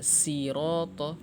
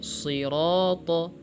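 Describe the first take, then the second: First: The first consonant is thin and light. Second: The first consonant is thick and heavy. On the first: The speaker calls it wrong. "jangan dibaca siroto, ya salah" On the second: The speaker calls it right. "Kita harus tebalkan siroto"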